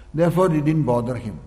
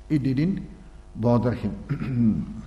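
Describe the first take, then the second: First: Said in the usual way. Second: It didn't bother him, drawn out very slowly and softer; slow soft repeat. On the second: Shown as a demonstration. Teacher letting the lesson sink in for listeners, very slow and soft. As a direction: let each word sink in, slowly and quietly.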